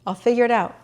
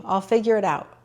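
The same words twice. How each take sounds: First: Repeated higher, lightly lifted; self-reassuring. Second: Said in the usual way. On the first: Real, not acted. Telling herself about the Peloton, reassuring. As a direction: settle your own worry.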